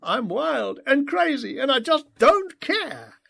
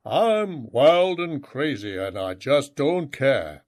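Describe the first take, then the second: First: High, loud mock devil-boy voice; father joking in his son's devil-boy voice; imitating devil boy voice. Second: Put-on slow growling child's echo; boy growling the phrase back at his father; growled echo. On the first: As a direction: joke in a silly demon-kid voice. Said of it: "imitating his devil boy voice". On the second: A narrator's reading. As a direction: growl it back like a little devil. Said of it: "growled Rowan in echo".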